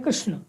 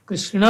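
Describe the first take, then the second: First: कृष्ण with the final a dropped; Hindi pronunciation. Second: कृष्ण with the final a sounded; full Sanskrit pronunciation. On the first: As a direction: say कृष्ण clipped at the end. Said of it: "Hindi में हम किसको कहते हैं?". (हिंदी उच्चारण, अंतिम अ लुप्त) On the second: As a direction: say कृष्ण with every syllable full. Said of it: "Sanskrit में हमें". (पूरा संस्कृत उच्चारण) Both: Shown as a demonstration.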